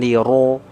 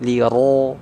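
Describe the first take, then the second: Both takes have the same delivery.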